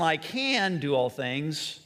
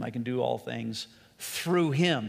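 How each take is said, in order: First: "can" drawn out and punched, slow; stress on CAN. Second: "I can" passed over lightly, weight on "through him"; stress on THROUGH HIM. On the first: Preacher asking where the emphasis goes, stress on CAN. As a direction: hit "can" hard in "I can do all things". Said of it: "you put the emphasis on". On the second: Preacher moving the emphasis to the second part, stress on THROUGH HIM. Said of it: "or on the aspect of "through him". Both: Shown as a demonstration.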